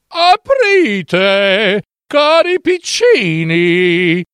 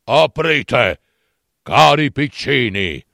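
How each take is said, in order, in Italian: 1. La voce è morbida e dolce. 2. La voce è ruvida e rauca. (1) "s'addolcì la voce" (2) "dalla voce rauca"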